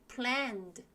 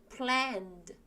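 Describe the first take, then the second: No difference in how they are said.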